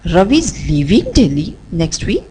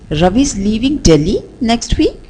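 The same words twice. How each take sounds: First: The stress falls on the word leaving. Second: The stress falls on the word Delhi. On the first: "we'll shift the stress on the word leaving" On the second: "let's shift the stress on the word Delhi"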